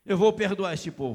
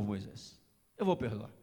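First: Said in the usual way. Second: Much lower and softer, a calm promise; gentle God. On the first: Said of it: "God answers Moses". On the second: Acted. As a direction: drop low and soft as God reassuring Moses. God's gentle reply to Moses. (voz baixa e serena de Deus)

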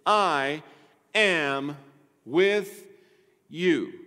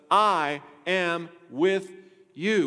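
First: Each word set apart by pauses; I... am... with... you, spaced out and leaning on with; measured slow emphasis. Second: Slow, leaning hard on with; I am WITH you, drawn out and pressed; stress on with. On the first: Pastor spells out God's promise word by word. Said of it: "Not "I am," but "I am with you". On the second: Pastor contrasts "I am" with "I am with you". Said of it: "Not "I am," but". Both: Shown as a demonstration.

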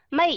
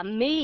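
First: "me" with a short, slightly drifting vowel; teacher imitating a common student mistake; wrong learner take. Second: "me" with a long, steady ee vowel; teacher modelling the correct "me". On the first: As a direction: mimic a learner's off-target "me". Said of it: "các bạn đọc là me". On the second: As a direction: say "me" with a long, held ee. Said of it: "không đọc là me". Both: Shown as a demonstration.

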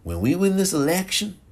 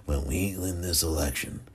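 First: Failed impression, higher and rising; badly faked president, pitched up; Ronald Reagan. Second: Softer, lower presidential impression; retry the president in a hushed, lower voice; Ronald Reagan. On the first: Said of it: "That's not even how Reagan sounds". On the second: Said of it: "That's the most pathetic Ronald Reagan".

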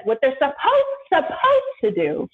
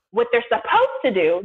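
First: Supposed stretched out slow and rising, as if it should be obvious; slowly repeating supposed with pointed emphasis; stress on supposed. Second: Said in the usual way. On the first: Retold or imitated. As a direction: lean hard on supposed and drag the line. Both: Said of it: "this is what she said".

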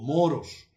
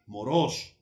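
First: Said in the usual way. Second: "moros" with the stress on the second syllable, mo-ROS. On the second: Shown as a demonstration. Pastor demonstrating "moros" stressed on the second O. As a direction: say "moros" leaning on the final -ros. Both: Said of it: "tiene acento en la segunda O".

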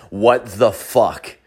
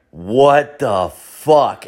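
First: Slow, word-by-word imitation of mouthing; mimed mouthing. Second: Very slow, drawn-out shock; imitated stunned disbelief. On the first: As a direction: voice someone silently mouthing it, slowly. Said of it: "he mouths the words". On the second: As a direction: act out a bystander stunned word by word. Stunned counter guy staring, mouth open.

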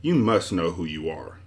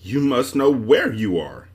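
First: Put-on mildly impatient boy; a touch of impatience. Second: Slow, higher annoyed echo, leaning on "where"; annoyed retort. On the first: Milo to the confused stranger, mildly impatient. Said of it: "said Milo impatiently". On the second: Confused man answers Milo back, annoyed. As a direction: throw it back with drawn-out annoyance. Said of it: "replied with equal annoyance". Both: A narrator's reading.

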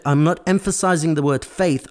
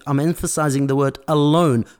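First: FAITH set up firmly as the contrast; stress on FAITH. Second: ALONE hit hard as the key word; stress on ALONE. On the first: Preacher correcting a misreading, FAITH marked for contrast. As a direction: put weight on "faith" as the word set aside. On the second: Preacher telling listeners which word matters, stressing ALONE. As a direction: land the weight on "alone". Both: Shown as a demonstration.

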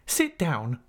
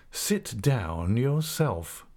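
First: Brief order, pitch lifted; stern command. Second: Very slow, stretched-out defiant comeback; insolent retort. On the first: Mister Mell orders the defiant pupil to sit, stern and brief. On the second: Pupil answers the schoolmaster back before the class, slow and insolent. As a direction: drag the words out to mock the order. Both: Acted.

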